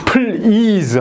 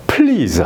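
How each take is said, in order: First: Very slow "please", raised pl then ease, pulled apart; laboured pl... ease for "please"; split harder version. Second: "please" in one beat, pitch dropping away; relaxed single-syllable "please", pl run into ease; easy joined version. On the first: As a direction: say "please" high and drawn out in two parts. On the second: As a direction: say "please" blended and falling. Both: Shown as a demonstration. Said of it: "그게 더 쉽죠".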